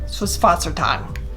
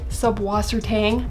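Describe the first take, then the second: First: The word is given a German pronunciation. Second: The word is given an Americanized pronunciation. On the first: This is the original-language way to say it. "the appropriate pronunciation would be" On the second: This is the common local way to say it. "we are in America here, so it does generally go by Subwassertang"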